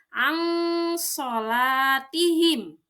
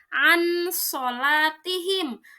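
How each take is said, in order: First: The n sound is hidden and nasalized. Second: The n sound is pronounced clearly and fully. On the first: The speaker calls it right. "Ikhfa artinya samar, maka dibacanya" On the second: The speaker calls it wrong. "tidak dibaca an sholatihim"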